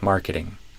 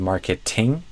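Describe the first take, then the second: First: The middle T is a quick tap. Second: The middle T is a clear T. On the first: "It's probably going to become a flap T for most Americans" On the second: "instead of marketing, it's not wrong"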